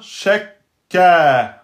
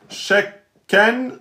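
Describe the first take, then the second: First: The word ends on a vowel, no n. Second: The word ends with an n sound.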